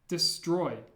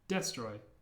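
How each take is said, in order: First: The stress is on the second syllable. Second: The stress is on the first syllable. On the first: The speaker calls it right. "the stress of destroy is on the oi" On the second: The speaker calls it wrong. "if it was on the eh, the first e sound in destroy"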